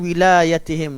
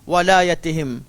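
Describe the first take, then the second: First: The first syllable is said with an 'i' vowel. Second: The first syllable is said with an 'a' vowel. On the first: This is the reading of one particular reciter. "Kecuali kiraat Hamzah yang membaca dengan wilayatihim dengan baris bah, bawah" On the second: This is the reading of most reciters. "semua kiraat baca walayatihim"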